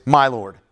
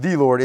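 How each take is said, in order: First: "my" leaned on to show ownership; stress on my. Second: "the" picked out as the impersonal word; stress on the. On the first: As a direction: make "my" the key word before "Lord". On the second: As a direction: lean on "the" before "Lord". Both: Shown as a demonstration. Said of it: "personal pronouns make a difference".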